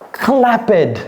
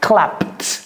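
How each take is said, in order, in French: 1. La fin n'est pas un simple son T. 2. La fin est un simple son T. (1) "Ce n'est pas clapped" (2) "C'est clapped"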